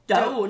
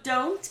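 First: The final t sound is dropped. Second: The final t sound is pronounced.

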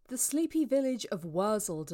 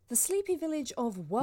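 First: It is said in a lower voice. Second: It is said in a higher voice.

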